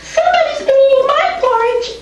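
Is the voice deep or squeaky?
squeaky. It is said in a high, squeaky voice.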